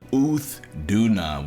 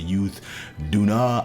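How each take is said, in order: First: The name starts with a plain vowel sound. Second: The name starts with a 'y' sound. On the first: The speaker calls it right. "which is way better than anything I said yesterday" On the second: The speaker calls it wrong. "I said all kinds of crap yesterday. I said Youth Duna"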